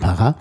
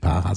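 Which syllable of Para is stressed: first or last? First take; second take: last; first. First: The stress is on the last syllable. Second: The stress is on the first syllable. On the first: The speaker calls it right. "sondern Para ... das hinten betont" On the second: The speaker calls it wrong. "eigentlich nicht Para"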